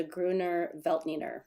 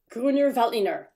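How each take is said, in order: First: Said in the usual way. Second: Loud, higher, mildly aggressive German delivery; confident German. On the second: Shown as a demonstration. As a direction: say it boldly, with a little aggression. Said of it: "just say it with confidence".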